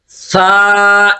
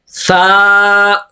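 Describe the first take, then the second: Both takes have the same delivery.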